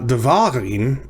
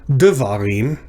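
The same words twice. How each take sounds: First: The stress is on the middle syllable. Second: The stress is on the first syllable. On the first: "and it's not devarim" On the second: "So it's not devarim"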